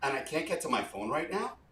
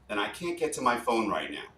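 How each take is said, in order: First: The pitch rises at the end of the phrase. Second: The pitch falls at the end of the phrase. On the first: It sounds like a question. The speaker calls it wrong. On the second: It sounds like a command or request. The speaker calls it right.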